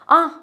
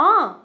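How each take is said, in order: First: The 'ah' sounds sad and disappointed. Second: The 'ah' sounds surprised and astonished. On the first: Someone has left, which is regrettable. "एक दुख के साथ भी बोल सकते हो" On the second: Someone has left, which is unexpected. "कभी surprise बोलते हो"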